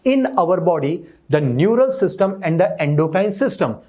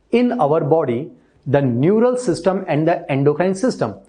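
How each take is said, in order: No difference in how they are said.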